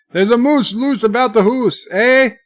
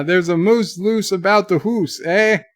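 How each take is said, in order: First: High, loud mock Canadian accent; hammed-up Canadian. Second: Mild mock Canadian accent on "hoose"; put-on Canadian. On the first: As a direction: belt out "hoose" and "eh" in cartoon Canadian. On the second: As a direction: say "hoose" to rhyme with moose, Canadian-style. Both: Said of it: "that was my Canadian".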